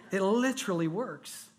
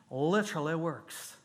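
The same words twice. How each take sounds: First: Said in the usual way. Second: Lightly put-on Georgia accent; imitating an older man's Georgia accent. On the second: Shown as a demonstration. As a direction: say it with a touch of Georgia.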